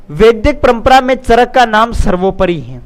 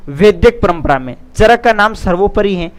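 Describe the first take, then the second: No difference in how they are said.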